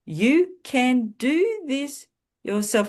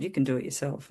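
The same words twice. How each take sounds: First: Slow, high and louder, leaning on each word; slow emphatic quote. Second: Said in the usual way. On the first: Retold or imitated. Recalled adviser's words, said slow, high and emphatic. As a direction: spell the words out like a message that lands. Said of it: "it was those words". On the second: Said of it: "I was told".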